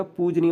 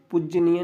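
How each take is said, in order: First: पूजनीय with long oo and single j; teacher modelling pooj-neey; correct pronunciation. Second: पूजनीय as puj-ja-niy, short u and doubled j; teacher showing the doubled-consonant mistake; wrong pronunciation. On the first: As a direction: hold the पू, keep the j single in पूजनीय. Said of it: "पूजनीय होता है". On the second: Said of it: "पूजनीय नहीं होता". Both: Shown as a demonstration.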